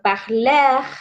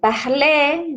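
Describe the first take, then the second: First: The final R is clearly pronounced. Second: The final R is silent. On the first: The speaker calls it wrong. "llegan diciendo parler ... esta R final se nos va colando" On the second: The speaker calls it right. "en vez de decir"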